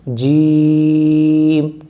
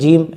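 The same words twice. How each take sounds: First: The word is drawn out long in one breath. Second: The word is said quickly and clipped short. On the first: The speaker calls it right. "उस सांस को जितना लंबा आप कर सकते हो उतना लंबा करिए" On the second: The speaker calls it wrong. "ऐसा नहीं जीम ऐसे पढ़ दें आप"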